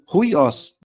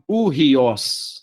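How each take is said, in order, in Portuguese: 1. O som do h vem antes da primeira vogal. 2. O som do h vem depois da primeira vogal. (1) "Eu tô falando ruiós" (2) "eu não tô falando urriós"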